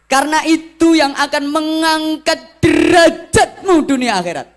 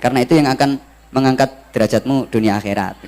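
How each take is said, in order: First: It has a lively, emphatic preacher's intonation. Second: It is said flat, with no intonation.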